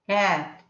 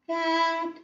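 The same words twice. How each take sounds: First: It is louder but at the same pitch. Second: It is higher in pitch at equal loudness. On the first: "I'm in the same pitch, but I'm just raising my sound alone" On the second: "let me raise my pitch and keep the sound loudness in as itself"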